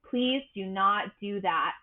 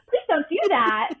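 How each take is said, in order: First: It is said in a deep, weighty voice. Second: It is said in a light, sweet voice. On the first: A stormy, forceful personality is setting a boundary. "they have this gravitas, they have this depth" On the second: A gentle, sunny personality is setting a boundary. "Barbie voices of the world"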